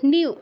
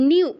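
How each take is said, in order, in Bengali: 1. দীর্ঘ উ-স্বরের আগে একটি ইয়-ধ্বনি আসে। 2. দীর্ঘ উ-স্বরের আগে একটি ইয়-ধ্বনি আসে।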